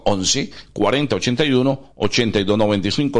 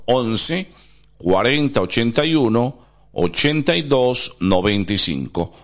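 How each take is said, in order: First: It is said at normal speed. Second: It is said slowly.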